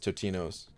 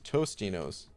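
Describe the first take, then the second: First: The name has no s sound before the t. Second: The name has an s sound before the t. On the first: The speaker calls it right. "No S?" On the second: The speaker calls it wrong. "I could have sworn there was an S in it"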